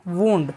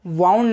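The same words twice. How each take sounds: First: वुंड said with an "oo" vowel, like "woond"; teacher models the right वुंड; correct pronunciation. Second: वाउंड said with an "ow" vowel, like "wow-nd"; mispronounced वाउंड for contrast; wrong pronunciation. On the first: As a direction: say वुंड carefully with a long oo. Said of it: "correct pronunciation है वुंड". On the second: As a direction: say वाउंड the common wrong way, rhyming with "sound". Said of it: "आपने इसे वाउंड नहीं पढ़ना है". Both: Shown as a demonstration.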